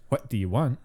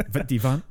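First: "What do you want" with ordinary W sounds; standard pronunciation. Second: Imitated Highland Scots, V for W; higher mock Highland take with "vid" and "vant"; Highland accent. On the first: Shown as a demonstration. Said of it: "I believe that is".

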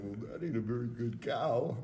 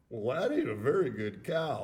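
First: Imitating a cracking voice. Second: Imitating a cracking voice, laughing. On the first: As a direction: crack the voice mid-line. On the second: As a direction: let the voice crack on the quote. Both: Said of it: "his voice cracked a little".

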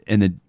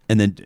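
No difference in how they are said.

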